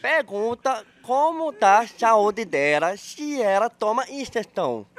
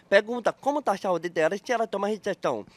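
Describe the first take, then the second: First: Very slow, word by word; drawn-out, deliberate question; speaking slowly. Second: Brisk, run together at a normal volume; quick, unbroken question; faster delivery. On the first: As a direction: spell it out slowly for someone who isn't getting it. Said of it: "Eu tenho que falar devagar". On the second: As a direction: say it quickly in one go. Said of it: "Quer que eu fale rápido, então?". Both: Shown as a demonstration.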